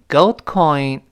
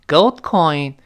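No difference in how they are said.

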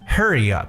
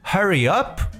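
First: It is said with an American accent. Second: It is said with a British accent. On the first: "也可以听到美国人讲hurry up" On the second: "你可以听到英国人说hurry up"

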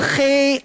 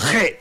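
First: It is said in Standard Mandarin. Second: It is said in Shaanxi dialect.

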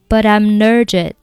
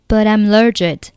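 First: The t of 'but' links into 'I'm'. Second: The t of 'but' links into 'I'm'.

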